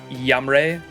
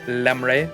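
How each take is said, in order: First: The name begins with a Y sound. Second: The name begins with an L sound.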